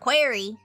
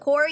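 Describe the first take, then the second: First: The first vowel sounds like in 'ear'. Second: The first vowel sounds like in 'car'. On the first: The speaker calls it right. "it's the query" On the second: The speaker calls it wrong. "it's not the quarry"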